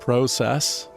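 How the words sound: Said with a Canadian-style first vowel. "I spent about a decade in Canada ... so I say things sometimes like process"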